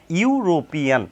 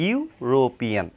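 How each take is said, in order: First: ইউরোপিয়ান said starting on a clear you sound; ইউরোপিয়ান said crisply as a model word; pronunciation model. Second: ইউরোপিয়ান drawn out slowly, softer; slow careful repeat of ইউরোপিয়ান; slow spelled-out repeat. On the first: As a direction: stress the opening you of ইউরোপিয়ান. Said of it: "ভাওয়ালের উচ্চারণটা কিন্তু ইউ বা অর মতো". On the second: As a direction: say ইউরোপিয়ান slowly so the you sound is clear. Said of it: "ইউ বা অর মতো হচ্ছে". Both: Shown as a demonstration.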